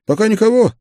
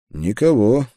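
First: Much higher, louder, quick question; partner's query. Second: Said in the usual way. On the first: A narrator's reading. Busy partner asks whether anyone is coming, high raised query. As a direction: toss out a high, keen question.

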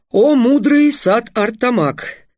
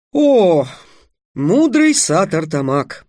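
First: Slow, high, drawn-out flattery; flowery courtly address. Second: Loud opening, slow reverent address; courtly bow. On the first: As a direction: lay the praise on thick and slow. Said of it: "продолжил Трикс". (медленная высокая льстивая речь) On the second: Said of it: "Трикс поклонился". (торжественное почтительное обращение) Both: A narrator's reading.

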